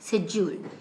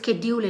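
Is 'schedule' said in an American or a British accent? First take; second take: British; American. First: It is said in a British accent. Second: It is said in an American accent. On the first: "the exact British pronunciation is schedule" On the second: "those are all American accents and normal pronunciation base"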